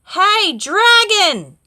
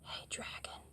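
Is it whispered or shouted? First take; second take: shouted; whispered. First: It is shouted very loudly. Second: It is whispered very softly.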